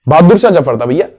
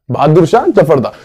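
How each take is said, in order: First: Shah stressed, Bahadur Shah Zafar था भैया ending on a rising, checking tune; correcting himself. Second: Shah stressed, Bahadur Shah Zafar था closing on a falling, settled tune; firm confirmation. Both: Shown as a demonstration. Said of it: "पक्का?".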